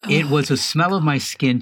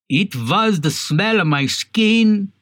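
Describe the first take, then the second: First: It is spoken without a Russian accent. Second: It is spoken with a Russian accent.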